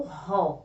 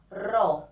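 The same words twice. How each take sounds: First: "ró" said like "hó", breathed from the throat; lower-pitched "ró" with a throaty h-like R; strong R. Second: "ró" with a flick of the tongue-tip, not an h; isolated syllable "ró" with a vibrating tongue-tip R; weak tapped R. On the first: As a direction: make the R of "ró" a hard h sound. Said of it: "Pronúncia forte". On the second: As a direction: tap the R lightly in "ró". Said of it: "O ró é pronúncia fraca". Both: Shown as a demonstration.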